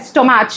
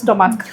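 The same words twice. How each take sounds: First: The word is said with a Hindi-style pronunciation. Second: The word is said with a standard pronunciation. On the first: This is how the classmates said it. The speaker calls it wrong. "said stomach" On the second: This is the usual way to say it. The speaker calls it right. "instead of stomach"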